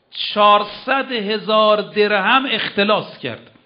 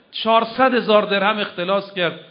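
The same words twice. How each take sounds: First: چهارصد هزار درهم said slowly and louder, falling at the end; stressed figure. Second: Said in the usual way. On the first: Acted. Preacher stresses the embezzled sum to the audience, slow and louder. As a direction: lean hard on چهارصد, slowly.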